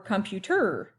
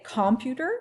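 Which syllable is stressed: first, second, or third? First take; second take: third; first. First: The stress is on the third syllable. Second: The stress is on the first syllable. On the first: "or this one" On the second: "is it this one"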